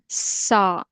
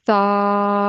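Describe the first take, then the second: First: The consonant is a sharp whistling hiss. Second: The consonant is soft with no whistle. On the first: The speaker calls it wrong. "if you just make pure S sound, that gives the sound sa, sa. That's a whistle sound" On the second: The speaker calls it right. "to avoid whistle sound, we put our tip of tongue under the upper teeth and we say it sa"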